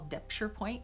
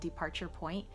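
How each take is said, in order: First: The first word is said with a syllable dropped. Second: The first word is said with every syllable. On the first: The speaker calls it wrong. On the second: The speaker calls it right.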